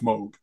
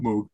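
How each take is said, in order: First: The vowel does not sound like 'moo'. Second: The vowel sounds like a cow's 'moo'. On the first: The speaker calls it right. "it's Moog. There's no cow" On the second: The speaker calls it wrong. "It's not Moog"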